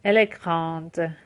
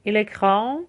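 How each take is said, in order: First: Slow کراند with a released D; French feminine "کراند", d clearly heard; final D pronounced. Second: کرام left on its nasal vowel; French masculine "کرام" with no d sound; silent final D. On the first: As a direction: draw out کراند and land on the D. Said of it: "حرف قبلیش تلفظ بشه". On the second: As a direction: leave the D off کرام, rising tune. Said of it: "دش تلفظ نمیشه". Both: Shown as a demonstration.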